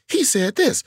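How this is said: It sounds matter-of-fact, simply delivering the line. The comic delivers the information and waits for the audience to catch up. "a more traditional comic would just go"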